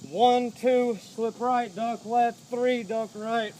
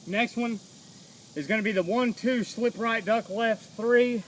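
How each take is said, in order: First: "One, two, slip right, duck left, three" called out punchy; counting combo out loud. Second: Said in the usual way. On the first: Shown as a demonstration. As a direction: call each punch as you throw it. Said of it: "calls combo while drilling". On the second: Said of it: "calls the combo".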